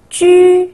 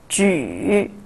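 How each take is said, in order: First: The pitch stays high and level. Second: The pitch dips low, then rises.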